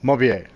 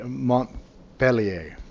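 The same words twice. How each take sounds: First: The syllables are run together quickly. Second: The syllables are said separately and carefully. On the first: The speaker calls it right. "I just totally running it together" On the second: The speaker calls it wrong. "that's probably my best attempt at French pronunciation"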